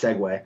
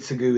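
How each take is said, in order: First: The word ends with a 'way' sound. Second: The word ends with an 'oo' sound. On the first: The speaker calls it right. "It's Segway" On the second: The speaker calls it wrong. "you mispronounced that"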